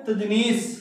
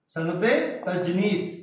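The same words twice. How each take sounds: First: Said in the usual way. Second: सनत तजनीस said again, softer and spaced out, with a small rise on तजनीस; repeated for dictation. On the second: Shown as a demonstration. Teacher repeating the new term for students, soft and spaced. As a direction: repeat सनत तजनीस gently so the class catches it.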